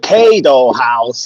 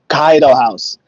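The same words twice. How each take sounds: First: The first vowel sounds like 'ay'. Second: The first vowel sounds like 'ah'. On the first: The speaker calls it wrong. "all they do is like" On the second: The speaker calls it right. "In Japan, they don't say A, they say ah"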